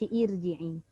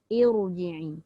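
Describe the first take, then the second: First: The r sound is light and thin. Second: The r sound is heavy and full. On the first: The speaker calls it wrong. "maka dia tidak boleh dibaca irji'i" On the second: The speaker calls it right. "Kita perlu baca dengan tafkhim"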